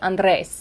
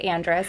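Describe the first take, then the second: First: The R in the name is rolled. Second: The R in the name is plain, not rolled. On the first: This is the family's original pronunciation. The speaker calls it right. "Technically, it's supposed to be Andres. Like, you're supposed to go, "Rrr."" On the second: This is how it is said where she grew up. The speaker calls it wrong. "I grew up in Minnesota, so I s- was raised to say Andres"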